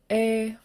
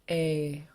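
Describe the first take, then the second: First: The long vowel is said on a high tone. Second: The long vowel is said on a low tone. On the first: "And then long and high" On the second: "Long and low"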